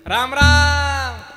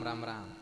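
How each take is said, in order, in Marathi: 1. ते उपहासात्मक आणि तुच्छ वाटते. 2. ते आदरयुक्त आणि प्रामाणिक वाटते. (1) "असं म्हणलं की उपास दिसतो" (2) "असं म्हणलं की आदर दिसतो"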